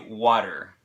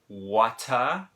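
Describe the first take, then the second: First: The middle T is a soft, D-like flap. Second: The middle T is a crisp, clear T. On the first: This is how it is said in America. "we pronounce it differently ... it's like a D sound kind of" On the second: This is how it is said in England. "in England, they would maybe pronounce the word water ... they actually pronounce that T"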